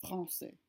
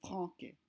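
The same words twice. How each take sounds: First: Français with a soft S sound, fran-SAY; French word. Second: Franquais with a hard K in place of the S; wrong hard K. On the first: Teacher showing the cedilla, French pronunciation. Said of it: "Notice how the word is pronounced français". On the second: Teacher contrasting the wrong hard K, mispronounced. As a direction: say it wrong, fran-KAY. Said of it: "instead of". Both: Shown as a demonstration.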